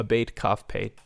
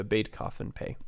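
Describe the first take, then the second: First: Beit Kaf Pei said as letter names; "Beit Kaf Pei" spoken slowly as three Hebrew letter names. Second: "Beit Kaf and Pei" named again, each letter spelled out; "Beit", "Kaf" and "Pei" said one by one as letter names; letter names, restated. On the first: Teacher reading out the letter names Beit Kaf Pei. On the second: Teacher repeating the letter names Beit, Kaf and Pei. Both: Shown as a demonstration.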